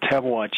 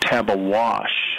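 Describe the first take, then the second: First: The name ends with a 'ch' sound. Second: The name ends with a 'sh' sound. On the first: The speaker calls it right. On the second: The speaker calls it wrong.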